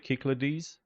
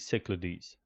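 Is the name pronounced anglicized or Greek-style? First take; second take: Greek-style; anglicized. First: The name is pronounced close to the Greek. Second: The name is pronounced the English way. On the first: "closer to the original Greek pronunciation" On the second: "more anglicized"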